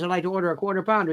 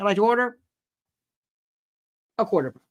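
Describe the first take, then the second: First: It is said smoothly without any pause. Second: It has a long dramatic pause midway. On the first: This is how people normally talk. "When you go to McDonald's" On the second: It mimics a jury's drawn-out announcement. "You don't say, ... they pause"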